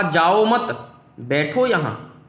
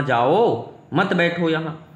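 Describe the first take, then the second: First: Slow "जाओ मत", clear gap, then "बैठो यहाँ"; pause after मत. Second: Slow "जाओ", gap, then "मत बैठो यहाँ"; pause after जाओ. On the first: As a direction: hold जाओ and मत together, pause before बैठो. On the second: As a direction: set जाओ apart and join मत to बैठो. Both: Shown as a demonstration. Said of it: "बस comma का अंतर है".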